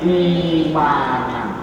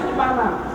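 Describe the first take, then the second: First: A long vowel runs smoothly into the m. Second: A catch closes the throat before the m. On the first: The speaker calls it right. "harus diganti cocoknya sebelumnya" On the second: The speaker calls it wrong. "aslinya si ikmanan karena ada dua hamzah"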